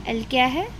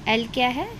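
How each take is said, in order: The two takes are said the same way.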